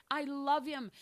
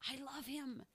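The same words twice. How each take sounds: First: Said in the usual way. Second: Hushed echo. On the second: Acted. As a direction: drop to almost nothing on the repeat. Repeated line, whispered echo.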